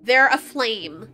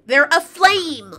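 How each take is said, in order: First: Said in the usual way. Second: "aflame" slow and punched; stress on aflame. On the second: Shown as a demonstration. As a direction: lean hard on "aflame". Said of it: "I'm serious".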